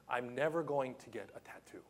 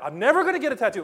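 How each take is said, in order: First: A soft, unvoiced whisper to himself; whispered aside. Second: Rushed, loud and high, tripping over the words; flustered blurt. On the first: Preacher musing to himself about a tattoo, in a whisper. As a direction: breathe it as a secret aside. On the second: Retold or imitated. Preacher arguing with himself over a tattoo, in a rushed loud blurt. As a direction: blurt it fast in mock panic. Agitated inner debate, fast.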